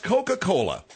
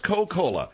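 First: "Coca-Cola" in four full syllables, co-ca-co-la; correct pronunciation. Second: "Coca-Cola" said as Co-Cola, three syllables; wrong pronunciation. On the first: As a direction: sound the "ca" in "Coca-Cola", higher-pitched correction. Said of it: "It's pronounced Coca-Cola". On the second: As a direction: drop the "ca" from "Coca-Cola", higher-pitched in protest. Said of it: "it is not pronounced". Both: Shown as a demonstration.

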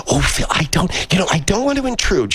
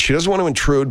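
First: Put-on high-pitched, apologetic older lady; high voice of a hesitant lady caller; older female character. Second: Said in the usual way. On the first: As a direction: put on a high old woman's voice, timidly imposing. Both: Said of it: "an older female character who will go".

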